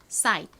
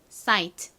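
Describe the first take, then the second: First: Said quickly, the final t is barely heard. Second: Said carefully, the final t is clearly pronounced. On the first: "빠르게 발음하면 트 소리가 거의 나지 않아서" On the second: "정식으로 또박또박 읽어볼게요"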